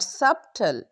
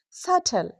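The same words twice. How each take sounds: First: The B is sounded. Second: The B is silent. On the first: The speaker calls it wrong. "not subtle" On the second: The speaker calls it right. "it's subtle"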